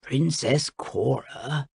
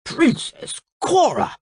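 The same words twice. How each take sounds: First: Slow, soft, low, disappointed parent; sad voice. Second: High, slow, scandalised call; shocked shout. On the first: King reproaching his daughter, in a sad voice. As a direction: say the name slowly and sadly. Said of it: "in the sad voice that Princess Cora hated most". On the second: King shocked at the torn-off dress, shouting. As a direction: cry the name out high, appalled. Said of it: "he shouted". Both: A narrator's reading.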